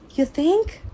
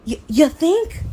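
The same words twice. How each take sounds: First: "You think?" pitched way up, mocking; sarcastic. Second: "You, you think?" higher and louder, fully exasperated; louder sarcasm. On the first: Sarcastic rising jab at the careless doctor. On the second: Retold or imitated. Exasperated shout back at the anesthesiologist. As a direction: hit "think" again, harder and incredulous.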